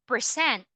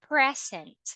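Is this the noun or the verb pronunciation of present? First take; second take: verb; noun. First: It is said the way of the verb. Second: It is said the way of the noun. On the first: It means to perform or show. "it will be a verb already" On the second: It means a gift. "it means a gift"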